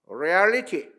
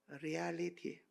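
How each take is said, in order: First: The word is said loudly and strongly. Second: The word is said softly and weakly. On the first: A value that never changes across time or place. "크게 썼으니까 크게 읽어보는데" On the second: Something that changes with time or place. "약하게 말해요"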